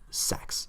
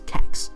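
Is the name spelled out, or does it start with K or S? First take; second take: S; K. First: The name is one word starting with S. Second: The name is one word starting with K. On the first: The speaker calls it right. "It's pronounced sex" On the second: The speaker calls it wrong. "the same way I did for fourteen years"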